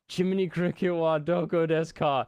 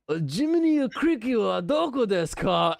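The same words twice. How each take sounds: First: It is said with a plain American accent. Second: It is said with an exaggerated Japanese accent. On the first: The listener could not understand it. The speaker calls it wrong. "we spoke very little Japanese, so it sounded awful" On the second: The listener understood it at once. The speaker calls it right. "say it in a little more of a whoa, like a samurai accent"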